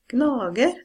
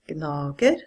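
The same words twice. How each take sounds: First: The word is said with toneme two. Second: The word is said with toneme one. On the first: "toneme two" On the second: "toneme one"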